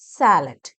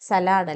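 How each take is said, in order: First: The first vowel is long. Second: The first vowel is short. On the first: The speaker calls it right. "സാലഡ് ദീർഘമാണ് വേണ്ടത്" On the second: The speaker calls it wrong. "സലാഡ് അല്ല"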